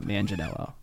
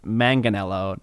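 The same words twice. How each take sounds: First: Manganiello said as "man-jen-ello"; soft-g mispronunciation. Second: Manganiello with a hard g, as in "man-gan"; correct hard-g pronunciation. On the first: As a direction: turn the g in Manganiello into an English j. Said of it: "not Manganiello". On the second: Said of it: "his last name is pronounced". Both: Shown as a demonstration.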